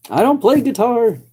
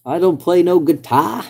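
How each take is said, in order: First: Mock yokel denial. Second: Hammed-up hillbilly grammar. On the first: Jokey denial in put-on voice. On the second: Repeats with double negative.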